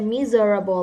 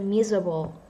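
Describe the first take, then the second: First: The word is said slowly with every syllable. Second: The word is said short with a syllable dropped. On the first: The speaker calls it wrong. "You don't say miserable like that" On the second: The speaker calls it right. "there's a shorter way to say that"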